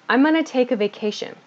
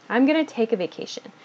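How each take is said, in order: Both takes have the same delivery.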